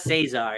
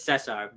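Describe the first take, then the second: First: The name is said with an English pronunciation. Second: The name is said with a Spanish pronunciation. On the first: The speaker calls it wrong. "it's not Cesar" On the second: The speaker calls it right. "Spanish pronunciation"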